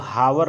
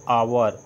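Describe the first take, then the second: First: The word begins with an audible h sound. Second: The word begins directly with a vowel sound. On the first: The speaker calls it wrong. "इसको हावर नहीं पढ़ते" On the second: The speaker calls it right. "इसको हम पढ़ते हैं आवर"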